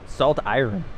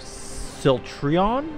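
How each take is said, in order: First: The name is said as two separate words. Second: The name is blended into one word. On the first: The speaker calls it right. "if you're gonna pronounce them separate" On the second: The speaker calls it wrong. "I was gonna go Siltrion?"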